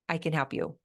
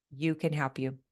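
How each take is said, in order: First: "I" gets the weight, the rest falls away; stress on I. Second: The first "you" carries the weight, said softer and lower; stress on you. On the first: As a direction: lean on the word I in "I can help you". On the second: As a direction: lean on the first "you" in "you can help you". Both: Shown as a demonstration.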